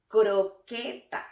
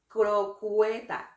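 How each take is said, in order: First: No glide is heard after the k sound. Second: A 'w' glide is heard after the k sound. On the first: The speaker calls it right. "es croqueta" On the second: The speaker calls it wrong. "No es crocueta"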